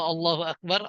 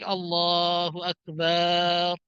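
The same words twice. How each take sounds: First: The vowels are kept at normal short length. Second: A vowel is stretched out noticeably long. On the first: God is the greatest. The speaker calls it right. "Allah Maha Besar" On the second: The meaning changes into something else entirely. The speaker calls it wrong. "artinya panjangin itu"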